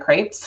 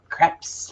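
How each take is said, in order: First: The word is said with a Midwestern American pronunciation. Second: The word is said with a French pronunciation. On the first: "in the Midwest, uh, they're crepes" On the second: "if you're French"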